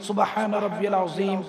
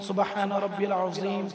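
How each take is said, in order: The two takes are said the same way.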